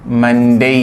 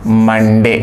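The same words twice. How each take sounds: First: मंडे as 'mun-dei' with a gliding ending; correct pronunciation. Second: मंडे loud and drawn out, 'mun-de'; common Indian pronunciation. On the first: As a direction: loudly end मंडे on an 'ei' diphthong. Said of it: "ये सही है". (मंडे को 'मन-डेइ', ज़ोर से) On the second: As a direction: call out मंडे with a plain final 'e'. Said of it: "क्या बोलेंगे?". (आम बोलचाल वाला मंडे, ज़ोर से) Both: Shown as a demonstration.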